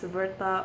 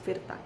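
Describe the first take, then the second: First: The name is said the anglicized way. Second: The name is said the Indonesian way. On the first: "if you want to pronounce it as Verta or something like that, it's up to you" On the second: "in Indonesian, it's pronounced as Virta"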